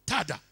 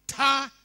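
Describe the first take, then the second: First: Said in the usual way. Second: High, loud showy tada; triumphant tada. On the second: Retold or imitated. Girl announcing Jesus's first words, triumphant high tada. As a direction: present it like a magic trick. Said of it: "extending her arms high into the air, she said".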